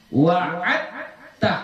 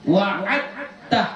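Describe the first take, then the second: No difference in how they are said.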